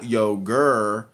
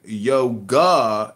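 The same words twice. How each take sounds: First: YOGUR with a hard R ending; mimicking a wrong R on yogur; mocking mispronunciation. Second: YOGA ending in a full open AH; stretched YO-GAH, no R; careful pronunciation. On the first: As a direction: end yogur on a drawn-out ER. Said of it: "It's not an R at the end". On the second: Real, not acted. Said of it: "It's called yoga".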